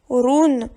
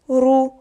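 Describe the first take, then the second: First: The syllable ends with an n sound. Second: The syllable ends on the vowel, no n. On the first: The speaker calls it wrong. "On ne doit pas le lire roun" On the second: The speaker calls it right. "on le prononce rou"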